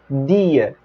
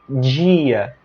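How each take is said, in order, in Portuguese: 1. A primeira consoante é um d dental. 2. A primeira consoante não é um d dental. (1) "com a língua aqui no dente, vai ser dia" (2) "na maior parte do país, a palavra day será dia, pronunciada dessa forma"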